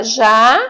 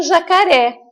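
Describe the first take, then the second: First: "jacaré" broken into three separate syllables. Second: Said in the usual way. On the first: Shown as a demonstration. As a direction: sound out "jacaré" with a pause after each syllable. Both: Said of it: "eu vou pintar a sílaba".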